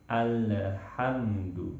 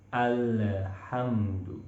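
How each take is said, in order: No difference in how they are said.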